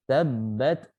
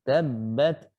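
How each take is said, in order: Both takes have the same delivery.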